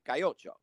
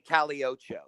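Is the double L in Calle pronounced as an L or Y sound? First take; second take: Y sound; L sound. First: The double L is pronounced as a Y sound. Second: The double L is pronounced as an L sound. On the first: The speaker calls it right. "they say cayocho" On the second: The speaker calls it wrong. "they don't say caliocho"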